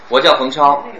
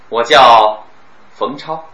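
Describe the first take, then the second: First: It is said without a pause inside. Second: It is said with a pause inside. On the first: "这是A" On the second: "B 呢"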